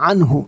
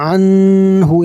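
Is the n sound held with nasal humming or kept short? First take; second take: short; held. First: The n is short with no nasal hum. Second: The n is held with a long nasal hum. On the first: The speaker calls it right. "বিনা গুণায় পড়তে হবে" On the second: The speaker calls it wrong. "এমন হবে না"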